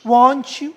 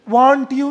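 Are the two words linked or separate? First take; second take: linked; separate. First: The two words are run together. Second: The two words are said separately. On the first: The speaker calls it right. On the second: The speaker calls it wrong.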